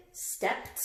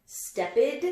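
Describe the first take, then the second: First: "stepped" whispered, ending in a crisp T. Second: "Stepped" as step-id, rising; wrong ID ending. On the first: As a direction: breathe "stepped" as stept. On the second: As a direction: test "Stepped" with an extra ED syllable. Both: Shown as a demonstration. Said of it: "another one for the T sound".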